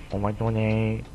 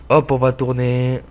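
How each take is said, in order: First: Said in the usual way. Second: Slow, louder sing-song call; louder, slowed-down turning call; drawn-out announcement. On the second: Real, not acted. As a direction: stretch it out as you turn the wheel. Same words said twice.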